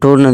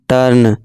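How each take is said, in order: First: The vowel is a rounded 'oo' sound. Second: The vowel is a short 'uh' sound. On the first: The speaker calls it wrong. "नहीं" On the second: The speaker calls it right. "यू को छोटा आ से पढ़ें"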